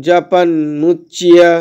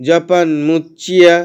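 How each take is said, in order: No difference in how they are said.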